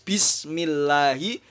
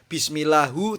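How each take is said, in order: First: The word ends with a final i vowel. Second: The word ends with a final u vowel. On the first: The speaker calls it right. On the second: The speaker calls it wrong. "tidak boleh"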